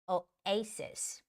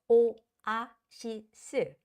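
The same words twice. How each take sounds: First: It is said with an English accent. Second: It is said with a Korean accent. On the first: The speaker calls it right. "but in English it's oasis" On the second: The speaker calls it wrong. "a lot of Koreans would say oasis because that's how we say it"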